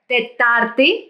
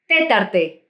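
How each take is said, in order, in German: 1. Die Betonung liegt auf der zweiten Silbe. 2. Die Betonung liegt auf der ersten Silbe. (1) "Tetarte, Mittwoch" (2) "Tetarte, die vierte"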